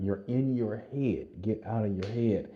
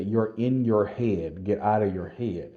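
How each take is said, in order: First: Urgent coaching call. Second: Slow, loud, firm call from a running partner; urgent coaching call. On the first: Running partner repeats the urging. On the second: Running partner urging a sprinting soldier, slow and loud. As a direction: drag out every word and press them. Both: Retold or imitated.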